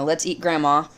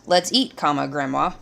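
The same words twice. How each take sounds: First: Said in the usual way. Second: "Let's eat" set apart from "grandma"; pause at the comma. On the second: Shown as a demonstration. Teacher showing how a comma changes the meaning, "grandma" set apart. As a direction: break after "eat", say "comma", then "grandma". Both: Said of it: "the meaning is different".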